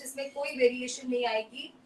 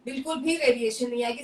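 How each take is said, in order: First: Said in the usual way. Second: बिल्कुल भी stressed, said faster and firmer; emphatic repeat. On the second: Shown as a demonstration. Host doubling down on her promise to viewers, emphatic. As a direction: hammer home बिल्कुल भी.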